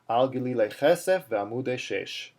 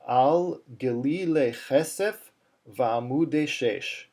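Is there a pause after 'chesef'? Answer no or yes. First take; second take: no; yes. First: It is said as one unbroken phrase. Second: There is a pause after chesef. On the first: This is how the phrase is normally read. "you'd say that all in one one uh, one phrase" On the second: The phrase is split up for teaching. "Now I paused between chesef and, and va'amude"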